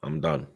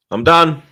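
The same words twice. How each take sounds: First: Soft, fed-up resignation; quiet resignation. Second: Loud, higher burst of exasperation; exasperated outburst. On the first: Fed-up fan giving up on the team, quietly resigned. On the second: Fed-up fan giving up on the team, loudly exasperated. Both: Real, not acted.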